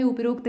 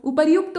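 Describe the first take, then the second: First: उपरोक्त said up-rokt with an o sound; उपरोक्त with the ro sound instead of ryu; wrong pronunciation. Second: उपर्युक्त said u-par-yukt with the y glide; उपर्युक्त with a clear ryu sound; correct pronunciation. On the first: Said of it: "उपरोक्त नहीं होता है". (उपरोक्त का गलत उच्चारण, रो के साथ) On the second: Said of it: "उपर्युक्त होता है". (उपर्युक्त का सही उच्चारण, र्यु के साथ) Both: Shown as a demonstration.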